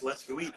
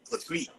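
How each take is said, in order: First: Said in the usual way. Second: LET'S GO EAT squashed into "skweet", pitched up; contracted pronunciation. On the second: Shown as a demonstration. Showing his regional slang, "let's go eat" jammed into "skweet". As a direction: run "let's go eat" together as "let's-kweet".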